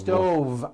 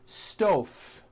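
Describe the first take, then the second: First: The final consonant is voiced, a clear V. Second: The final consonant is voiceless, like an F. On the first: The speaker calls it right. "with a voiced V" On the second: The speaker calls it wrong. "Is that correct? No"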